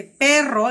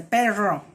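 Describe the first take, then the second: First: Said in the usual way. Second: "perro" with a French guttural R. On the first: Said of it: "si dice perro". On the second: Shown as a demonstration. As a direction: imitate a child saying "perro" with a French R. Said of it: "dice la R francesa".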